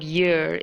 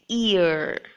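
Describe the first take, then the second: First: The word begins with a y sound. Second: The word begins directly with a vowel. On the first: The speaker calls it wrong. "ear with a Y ... it's not year" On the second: The speaker calls it right. "it's ear"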